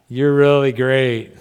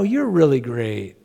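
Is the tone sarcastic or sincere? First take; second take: sarcastic; sincere. First: It is said with a sarcastic, mocking tone. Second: It is said warmly and sincerely. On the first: The praise is not meant. "It means something totally different" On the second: The praise is meant. "just the inflection can totally change a meaning"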